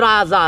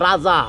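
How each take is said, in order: No difference in how they are said.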